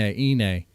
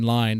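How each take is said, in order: First: The word begins with a vowel sound. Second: The word begins with an L sound. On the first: The speaker calls it right. "They say Ine" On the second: The speaker calls it wrong. "They don't say line"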